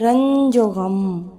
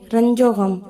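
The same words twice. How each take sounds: First: The 'o' after ranj is stretched out long. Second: The 'o' after ranj is short, barely sounded.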